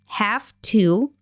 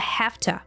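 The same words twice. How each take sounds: First: Both words are pronounced fully and separately. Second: The words blend into a short 'hafta'.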